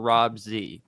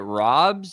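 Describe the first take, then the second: First: The Z is said as a separate letter. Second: The Z is blended into one syllable. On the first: The speaker calls it wrong. "there's no space between the Rob and the Z" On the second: The speaker calls it right. "it's Rob's"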